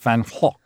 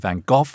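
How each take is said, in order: First: The name is said the Dutch way. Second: The name is said the English way. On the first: The speaker calls it right. "it's in Dutch, it's pronounced Van Gogh" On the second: The speaker calls it wrong. "The English, of course, say Van Gogh"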